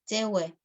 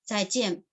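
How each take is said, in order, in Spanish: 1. Se dice en shanghainés. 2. Se dice en chino mandarín. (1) "en shanghainés es" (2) "adiós en chino mandarín"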